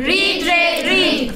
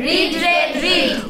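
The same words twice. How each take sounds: No difference in how they are said.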